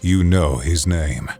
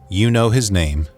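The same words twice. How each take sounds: First: The voice is low, airy and growly. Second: The voice is plain, without any growl. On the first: "But now I want to add a growl to it" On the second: "So that is just my normal speaking voice"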